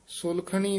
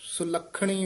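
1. ਸ਼ਬਦ ਢਿੱਲਾ ਅਤੇ ਨਰਮ ਬੋਲਿਆ ਜਾਂਦਾ ਹੈ। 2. ਸ਼ਬਦ ਕਸ ਕੇ ਅਤੇ ਪੱਕੇ ਤਰੀਕੇ ਨਾਲ ਬੋਲਿਆ ਜਾਂਦਾ ਹੈ। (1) "ਨਹੀਂ ਕਹਿਣਾ" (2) "ਉਚਾਰਨ ਕਰਨਾ ਹੈ"

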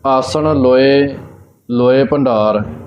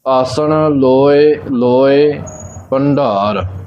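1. ਵਿਸ਼ਰਾਮ ਦੂਜੇ 'loe' ਤੋਂ ਬਾਅਦ ਨਹੀਂ ਆਉਂਦਾ। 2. ਵਿਸ਼ਰਾਮ ਦੂਜੇ 'loe' ਤੋਂ ਬਾਅਦ ਤੁਰੰਤ ਆਉਂਦਾ ਹੈ। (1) "ਇਸ ਪ੍ਰਕਾਰ ਇਹਦਾ ਵਿਸ਼ਰਾਮ ਨਹੀਂ ਲਾਉਣਾ, ਫਿਰ ਗਲਤ ਹੋਵੇਗਾ" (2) "ਇੱਥੇ ਦੂਜੇ ਲੋਏ ਤੇ ਦਾ ਵਿਸ਼ਰਾਮ ਲਾਉਣਾ ਹੈ"

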